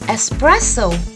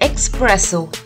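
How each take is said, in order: First: The word starts with an 'es' sound. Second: The word starts with an 'ex' sound. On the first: The speaker calls it right. "It is called espresso" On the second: The speaker calls it wrong. "We don't call it expresso"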